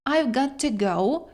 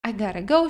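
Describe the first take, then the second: First: The words 'got to' are said fully and separately. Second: The words 'got to' are linked into 'gotta'. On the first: The speaker calls it wrong. "що ми досить рідко почуємо саме в такій вимові" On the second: The speaker calls it right. "Ми все з вами з'єднуємо, злінкуємо і виходить в нас I gotta go"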